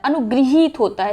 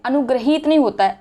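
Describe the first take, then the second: First: अनुगृहीत with "gri" in the middle; correct pronunciation. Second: अनुग्रहित with "gra" in the middle; wrong pronunciation. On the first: Teacher correcting it, "gri" form. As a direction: put an i sound in गृ of अनुगृहीत. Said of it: "ई का sound रहता है". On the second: Teacher quoting what people say, "gra" form. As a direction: say the ग्र of अनुग्रहित with an a. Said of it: "अनुग्रहित बोल देते हैं". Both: Shown as a demonstration.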